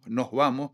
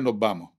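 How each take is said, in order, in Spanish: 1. La s final se convierte en una h suave. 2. La s final se elimina por completo. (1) "en Tenerife se convierte en nos vamos, aspiramos la ese final" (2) "en Las Palmas dirían nos vamos, perdemos la aspiración"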